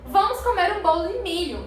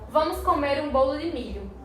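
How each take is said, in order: First: It is said in a happy, cheerful tone. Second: It is said in a sad, unwilling tone. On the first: The person is glad to eat the cake. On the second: The person may not like corn cake. "com tristeza"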